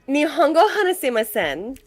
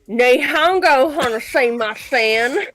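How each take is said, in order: First: It is said with a native-like Japanese pronunciation. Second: It is said with an American Southern accent. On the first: "That is like the most accurate that I would say it" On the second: "in a American with a Southern accent"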